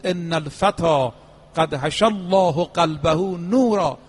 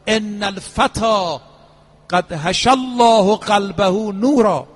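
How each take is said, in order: First: Slow Arabic quotation at normal volume; measured recitation. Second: Slow, ringing Arabic quotation, swelling louder; solemn proclamation. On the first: Preacher repeating the imam's tribute to the youth, slow and restrained. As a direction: repeat it slowly, without raising the voice. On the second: Preacher quoting the imam over a fallen youth, loud and drawn out. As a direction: proclaim it slowly, building in volume. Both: Retold or imitated.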